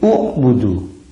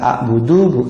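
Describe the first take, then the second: First: The word begins with the vowel u. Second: The word begins with the vowel a. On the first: The speaker calls it right. "Jadi kalau dibaca sendiri menjadi u'budu" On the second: The speaker calls it wrong. "Bukan a'budu"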